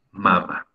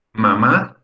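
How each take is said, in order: First: "mama" said slowly as MA-ma, falling away; stress on first syllable. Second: "Mamá" said ma-MA, second syllable raised; stress on last syllable. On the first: Teacher contrasting it with madre, "mama" stressed on first syllable. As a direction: land on the first "ma" of "mama", drop the second. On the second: Teacher giving the synonym of madre, "Mamá" stressed on last syllable. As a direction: push the final "má" of "Mamá". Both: Shown as a demonstration. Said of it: "El ejemplo que decíamos hace un rato".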